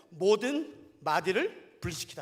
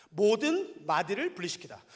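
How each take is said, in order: First: Slow reading. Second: Said in the usual way. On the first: Shown as a demonstration. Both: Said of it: "잘 들어보세요".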